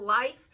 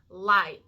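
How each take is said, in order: First: The word is said evenly with no extra emphasis. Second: The first part of the word is strongly emphasized.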